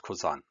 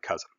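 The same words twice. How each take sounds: First: "cousin" said as koo-ZAN with a nasal French-style ending; German pronunciation. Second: Said in the usual way. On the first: Shown as a demonstration. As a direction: stress the second syllable of "cousin", koo-ZAN. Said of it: "but it's pronounced cousin". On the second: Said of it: "it's spelled like cousin".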